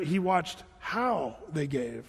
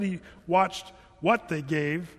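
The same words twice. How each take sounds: First: Slow, with "how" drawn out and stressed. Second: "what" set apart and stressed. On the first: Preacher making his point to listeners, long stress on "how". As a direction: stretch "how" as the real point, then ease off. Contrasts how with what they gave. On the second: Preacher correcting a reading for listeners, stress on "what". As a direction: lean on "what" as the thing being ruled out. Contrasts what with how they gave. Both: Shown as a demonstration.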